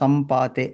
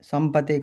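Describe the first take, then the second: First: The second syllable has a long vowel. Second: The second syllable has a short vowel. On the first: The speaker calls it right. "శస్త్ర సంపాతే అదొక్కటి చూసుకోండి" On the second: The speaker calls it wrong. "సంపతే కాదు"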